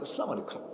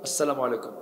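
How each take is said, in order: First: The greeting sounds warm and affectionate. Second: The greeting sounds cold and distant. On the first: The greeter shares the same kind of cap. "খুব মহব্বত" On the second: The greeter wears a different kind of cap. "অন্য"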